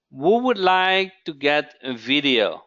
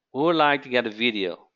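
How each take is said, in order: First: Emphatic question. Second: Quick repeat. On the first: Host asking viewers who wants a video, emphatic. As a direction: put the question to the room with force. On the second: Host repeating the question to viewers, quick and lighter. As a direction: toss the question out again quickly. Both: Real, not acted.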